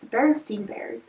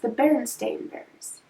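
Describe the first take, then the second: First: The name ends with a 'steen' sound. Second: The name ends with a 'stain' sound. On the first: This is the commonly remembered version with an E. The speaker calls it wrong. "instead of it being pronounced" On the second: This is the actual name spelled with an A. The speaker calls it right. "it's pronounced"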